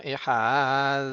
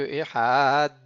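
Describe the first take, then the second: First: "Ehad" with a long buzzing th-like final d; final Dalet like Zayn. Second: "Ehad" with long a and a short hard final d; "Ehad" closed by a released hard d; hard final Dalet. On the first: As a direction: hold the d of "Ehad", tongue between the teeth. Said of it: "il le prononce un petit peu comme un Zayn". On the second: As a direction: stretch the vowel of "Ehad", then stop hard on d. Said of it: "plutôt que Ehad". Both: Shown as a demonstration.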